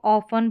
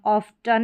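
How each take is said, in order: First: ऑफन with silent T; correct pronunciation. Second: ऑफ्टन with the T sounded; wrong pronunciation. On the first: Teacher showing how it is read, ऑफन without T. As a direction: say ऑफन, f straight into n. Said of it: "इसको ऑफन पढ़ेंगे". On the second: Teacher showing what not to read, ऑफ्टन with spoken T. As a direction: say ऑफ्टन with a t after f. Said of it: "ऑफ्टन नहीं पढ़ेंगे". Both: Shown as a demonstration.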